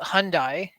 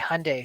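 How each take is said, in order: First: The ending sounds like 'die'. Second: The ending sounds like 'Sunday'. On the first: The speaker calls it wrong. "I used to call it Hyundai" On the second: The speaker calls it right. "like Sunday"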